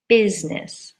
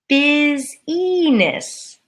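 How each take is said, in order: First: Business said BIZ-ness, the I silent; two-syllable business. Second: Business drawn out slowly as BIZ-ih-ness, three syllables; spelling pronunciation. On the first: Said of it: "and the I is silent". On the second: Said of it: "it looks like it's". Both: Shown as a demonstration.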